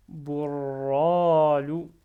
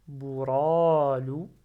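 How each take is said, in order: First: "Bourralou" with a doubled, held r before a long loud "ra"; held-back r. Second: "bouralou" with a single light r, long loud "ra"; without shadda. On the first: Teacher not letting the ra out easily, retained rolled r. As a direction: hold the r, then release it slowly in Bourralou. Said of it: "je le retiens". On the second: Teacher simplifying by removing the shadda, single-r bouralou. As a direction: say bouralou slowly, r not doubled. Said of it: "j'enlève shadda au début et je lis". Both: Shown as a demonstration.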